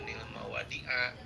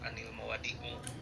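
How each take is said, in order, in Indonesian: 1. Kata terakhir diakhiri dengan vokal a. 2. Kata terakhir diakhiri dengan vokal u. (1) "jangan dibaca" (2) "jangan dibaca"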